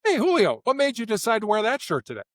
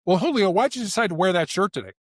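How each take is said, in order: First: Higher, friendly, open question; lifted, easygoing inquiry; non-accusatory. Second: Mildly challenging why question, a bit higher; lightly pointed query; accusatory. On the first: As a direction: ask with light, casual curiosity. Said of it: "it lands differently with you". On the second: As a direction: question them as if faintly accusing. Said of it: "why questions sound accusatory". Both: Shown as a demonstration.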